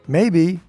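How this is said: It sounds open, treating the idea as plausible. The outcome seems reasonably possible, though not certain. "that tone of voice would express that you see it as a reasonable possibility"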